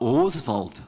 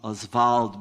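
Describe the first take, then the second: First: The name is said the common modern Brazilian way. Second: The name is said the older French-derived way. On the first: This is how most people say it today. The speaker calls it wrong. "most people in Brazil now say Oswald" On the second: This is how he and his circle said it. The speaker calls it right. "I'm pronouncing Oswald because that's the way he pronounced"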